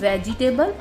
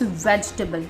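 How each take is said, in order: First: The second syllable is clearly pronounced. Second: The second syllable is dropped, leaving three syllables. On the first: The speaker calls it wrong. "This is not वेजिटेबल" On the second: The speaker calls it right. "जो second syllable है वो silent होता है"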